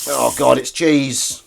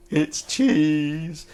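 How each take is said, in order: First: Louder, grossed-out "cheese" with a falling end; real disgust at finding cheese; disgusted discovery. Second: "cheese" said through a laugh, higher; amused repeat of "It's cheese". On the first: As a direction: recoil at the word cheese, louder. Finds cheese in the sink. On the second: Laughs at the same find. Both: Real, not acted.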